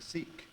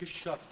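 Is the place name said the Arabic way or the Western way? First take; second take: Western; Arabic. First: The name is said with Western pronunciation. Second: The name is said with Arabic pronunciation. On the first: The speaker calls it wrong. "they couldn't pronounce shak. And instead of that, they said the Sikh" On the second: The speaker calls it right. "it is called in Arabic shak"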